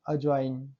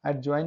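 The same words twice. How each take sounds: First: अजवाइन with no d, "a-join"; silent d. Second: एडजॉइन with the d sounded, "ad-join"; pronounced d. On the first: Teacher correcting for students, silent d in अजवाइन. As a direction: go straight to the j in अजवाइन. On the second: Teacher showing students the mistake, d sounded in एडजॉइन. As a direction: voice the d before j in एडजॉइन. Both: Shown as a demonstration. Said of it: "एडजॉइन नहीं".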